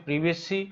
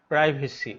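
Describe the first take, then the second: First: প্রিভেসি opening with short "priv"; British প্রিভেসি with a short i; British pronunciation. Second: প্রাইভেসি opening like "pry"; American প্রাইভেসি with a long i; American pronunciation. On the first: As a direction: say প্রিভেসি British style, first vowel as in "sit". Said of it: "এটা British উচ্চারণ হচ্ছে". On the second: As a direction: say প্রাইভেসি American style, first vowel as in "eye". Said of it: "আর American উচ্চারণ হচ্ছে". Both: Shown as a demonstration.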